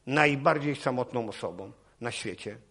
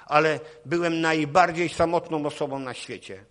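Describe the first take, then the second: First: Repeated softer, leaning on najbardziej; echoing his own loud line, softer; quieter echo. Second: Louder, higher, punching ale; the lonely sinner's cry, thrown out loud; loud emphatic cry. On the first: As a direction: let the words sink in more quietly. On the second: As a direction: proclaim it loudly to the crowd. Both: Real, not acted.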